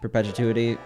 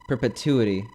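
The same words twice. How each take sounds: First: The word's sounds come out garbled. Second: The word's sounds come out clearly. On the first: The speaker calls it wrong. "I did not say it right" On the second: The speaker calls it right. "there we go"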